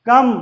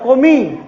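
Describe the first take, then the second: First: The final e is silent. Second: The final e is sounded. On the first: The speaker calls it right. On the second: The speaker calls it wrong.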